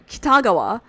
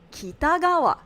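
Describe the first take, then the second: First: It has a stress accent, not the low-high-high-low pitch. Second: The pitch goes low, high, high, low. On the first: The speaker calls it wrong. "or however he says it" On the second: The speaker calls it right. "Low, high, high, low"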